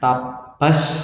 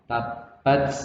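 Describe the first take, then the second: First: The t is followed by a strong hiss. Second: The t is followed by a slight hiss. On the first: The speaker calls it wrong. "nggak boleh dibaca S banyak. Tabas itu mah jadi sin nanti" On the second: The speaker calls it right. "setelah ada S sedikit"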